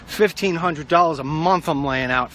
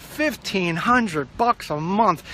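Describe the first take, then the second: First: Said in the usual way. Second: "Fifteen hundred bucks" stretched very slowly, word by word; slow, incredulous weight on every word of "Fifteen hundred bucks"; drawn-out emphasis. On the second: Real, not acted. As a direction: drag out "Fifteen hundred bucks a month", higher. Repeats cost for emphasis.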